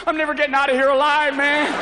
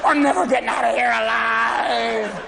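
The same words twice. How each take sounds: First: Higher, panicky and loud; paranoid golfer. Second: Slow, fake crying wail; mock sobbing. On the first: Retold or imitated. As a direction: panic about the sand trap. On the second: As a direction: blubber the line in mock despair. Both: Paranoid golfer in sand trap.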